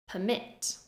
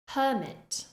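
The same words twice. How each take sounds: First: The stress is on the second syllable. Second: The stress is on the first syllable. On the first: It is a verb. "the verb form, stressing the second syllable" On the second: It is a noun. "the noun form, stressing the first syllable"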